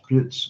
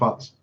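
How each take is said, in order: First: The vowel is long, like in 'cute'. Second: The vowel is short, like in 'but'. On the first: The speaker calls it right. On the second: The speaker calls it wrong. "Not butts"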